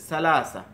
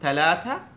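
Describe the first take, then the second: First: The word is said with s sounds. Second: The word is said with th sounds. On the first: This is how Egyptian speakers say it. "সায়ের মতো উচ্চারণ করতেছে" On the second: This is how Middle Eastern speakers say it. "এভাবে থায়ের মতো উচ্চারণ করতেছে"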